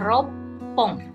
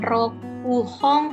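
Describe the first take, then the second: First: It is contracted, with a doubled p after 'ro'. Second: Full 'roku' is said, followed by an h sound. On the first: The speaker calls it right. "tapi dibacanya ropong" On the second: The speaker calls it wrong. "bukan rokuhong"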